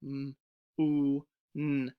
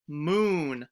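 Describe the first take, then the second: First: Sounded out slowly; each sound set apart; stretched sounds. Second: Said in the usual way. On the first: Shown as a demonstration. Teacher sounding out the word for students. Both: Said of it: "Let's try".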